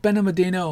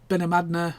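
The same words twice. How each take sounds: First: Benalmádena said as ben-uh-ma-DEE-no; alternative pronunciation. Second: Benalmádena said as ben-uh-MAD-nuh; alternative pronunciation. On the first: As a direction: stretch Benalmádena with a DEE-no ending. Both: Shown as a demonstration. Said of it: "however you wanna pronounce it".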